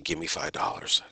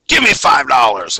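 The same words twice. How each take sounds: First: It is said in a plain, quiet way. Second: It is said loudly, with a lot of power.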